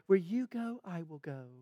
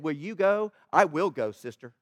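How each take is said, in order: First: It is said in a sweet, gentle tone. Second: It is said in a firm, forceful tone.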